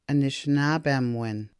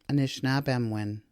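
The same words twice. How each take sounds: First: Two weak vowels, o and i, are dropped. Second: The same.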